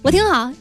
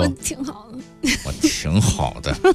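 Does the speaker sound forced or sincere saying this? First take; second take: sincere; forced. First: It is said in a relaxed, sincere tone. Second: It is said tensely through clenched teeth. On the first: The speaker is genuinely fine. "这应该是真挺好的" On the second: The speaker is about to not be fine. "咬着后槽牙说"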